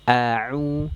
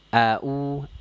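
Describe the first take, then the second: First: The middle consonant is pressed deep in the throat. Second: The middle consonant is a plain glottal stop. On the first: The speaker calls it right. "katup epiglotisnya ditekan di dinding tenggorokan" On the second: The speaker calls it wrong. "tertukar dengan vokal hamzah... ini kurang tepat ya"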